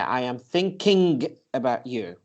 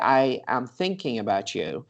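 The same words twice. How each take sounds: First: The g at the end of thinking is pronounced. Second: The g at the end of thinking is dropped. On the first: The speaker calls it wrong. "that is going to slow you down" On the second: The speaker calls it right. "But when you say"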